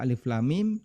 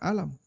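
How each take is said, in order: First: Each letter name is said separately. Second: The letters are joined into one voweled word. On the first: The speaker calls it right. "kita baca alif lam mim" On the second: The speaker calls it wrong. "tidak kita baca alam"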